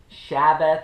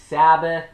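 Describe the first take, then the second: First: The word begins with an sh sound. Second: The word begins with a plain s sound. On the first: "or an S H" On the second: "pronounced as an S or an S H"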